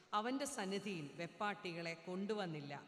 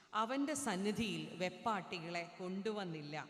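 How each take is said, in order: No difference in how they are said.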